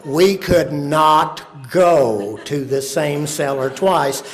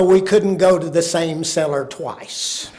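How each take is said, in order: First: Slow, each word of "could not go" stressed; emphatic repeat. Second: Said in the usual way. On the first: Shown as a demonstration.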